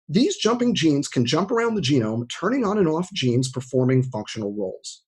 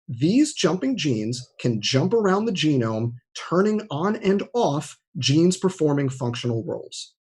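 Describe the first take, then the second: First: The sentence is read at normal speed. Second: The sentence is read slowly.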